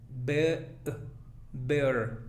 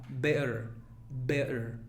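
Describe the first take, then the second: The two takes are said the same way.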